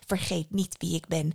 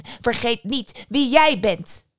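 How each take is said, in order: First: "Vergeet niet wie ik ben" said quietly and evenly; contained fury. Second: Slow, loud and raised, each word driven home; "Vergeet niet wie jij bent" with JIJ hit hard; furious warning. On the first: Mother Death reminds the boy who she is, contained anger. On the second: Mother Death puts her godchild in his place, slow emphatic anger. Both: A narrator's reading. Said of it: "Moeder Dood was woedend".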